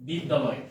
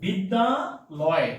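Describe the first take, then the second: First: Said in the usual way. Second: বিদ্যালয় drawn out very slowly, each syllable separate. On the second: Shown as a demonstration. Teacher spelling out বিদ্যালয় for students, very slow. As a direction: stretch বিদ্যালয় out slowly so students hear its parts. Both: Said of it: "just খেয়াল করেন".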